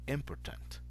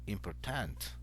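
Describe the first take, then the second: First: The stress falls early in the word. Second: The stress falls late in the word. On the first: The speaker calls it right. "So the stress goes at the beginning" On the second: The speaker calls it wrong. "kind of the stress goes at the end"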